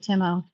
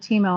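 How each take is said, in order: First: The name is pronounced with English vowels. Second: The name is pronounced with Spanish vowels. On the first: "but it might be Timo" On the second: "I'm thinking more the way I would pronounce it in Spanish"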